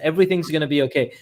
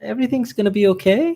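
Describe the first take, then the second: First: It is said firmly, with a confident tone. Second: It is said hesitantly, with a doubtful tone. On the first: Things really will be fine. The speaker calls it right. "you want to portray conviction" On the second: The speaker doubts things will be fine. The speaker calls it wrong. "that that doesn't make people feel okay"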